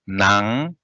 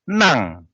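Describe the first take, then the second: First: The word is said on a low tone. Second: The word is said on a high tone. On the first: It means inside. "without uh, prefix" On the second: It means to give, honorific. "with prefix"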